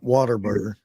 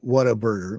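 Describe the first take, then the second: First: The first words blend into 'water'. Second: Each word, 'what a', is said separately. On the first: The speaker calls it wrong. "not water burger" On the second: The speaker calls it right. "I said what a burger"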